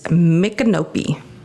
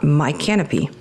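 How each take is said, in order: First: The name does not sound like 'my canopy'. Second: The name sounds like the phrase 'my canopy'. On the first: The speaker calls it right. "This is Micanopy" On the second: The speaker calls it wrong. "not my canopy"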